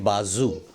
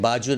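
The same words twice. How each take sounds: First: बाजू with a buzzing z, "baa-zoo", dropping lower; correct pronunciation. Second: बाजू with a j, "baa-joo"; wrong pronunciation. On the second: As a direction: say बाजू with j instead of z. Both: Shown as a demonstration. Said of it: "बाजू नहीं".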